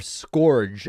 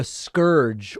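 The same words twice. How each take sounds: First: SCOURGE said to rhyme with "gorge"; Trump's pronunciation. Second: Said in the usual way. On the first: Retold or imitated. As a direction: say scourge with an "or" vowel, like "skorj". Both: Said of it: "as Trump would pronounce it".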